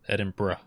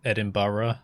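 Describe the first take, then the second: First: The last syllable is a short 'bruh'. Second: The last syllable is a fuller ending. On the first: The speaker calls it right. "bruh, bruh, bruh. That's that's how you say it" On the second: The speaker calls it wrong. "which uh isn't quite right"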